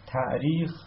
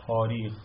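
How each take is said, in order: First: تعریخ said with a clear hamza stop; تعریخ with the glottal catch pronounced. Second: تاریخ said smoothly with a long a, no stop; تاریخ with the hamza turned into a long vowel; hamza softened to a long a. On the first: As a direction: say تعریخ keeping the hamza break in the middle. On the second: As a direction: glide through تاریخ without the glottal catch. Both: Shown as a demonstration.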